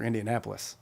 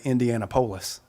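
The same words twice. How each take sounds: First: Said in the usual way. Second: "Indianapolis" with the stress shifted to POLIS; mis-stressed place name. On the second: Shown as a demonstration. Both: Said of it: "putting the emphasis on the right syllable".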